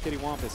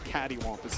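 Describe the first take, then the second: First: The first word sounds like 'kitty'. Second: The first word sounds like 'catty'. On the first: The speaker calls it wrong. "I definitely don't pronounce the word I think uh, accurately" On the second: The speaker calls it right. "I think it's catty wampus technically"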